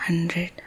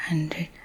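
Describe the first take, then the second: No difference in how they are said.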